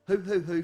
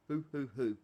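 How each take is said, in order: First: Imitating the innkeeper's hoot through laughter; laughing mock hoot. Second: 1 owlish hoot. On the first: Player mocking the innkeeper's hoot, laughing. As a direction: hoot it back while laughing. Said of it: "from her". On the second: Acted. Innkeeper's sign-off hoot.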